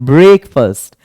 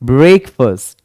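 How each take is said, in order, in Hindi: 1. दूसरा अक्षर 'fust' जैसा सुनाई देता है। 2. दूसरा अक्षर 'fust' जैसा सुनाई देता है।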